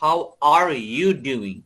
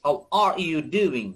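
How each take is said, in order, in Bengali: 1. are শব্দের r উচ্চারণ করা হয়। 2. are শব্দের r উচ্চারণ করা হয়।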